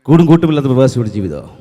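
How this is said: The line is spoken very fast in a stylized manner. "Rajinikanth എന്ന് പറയുന്ന ആള് മലയാളത്തിൽ പറഞ്ഞാൽ"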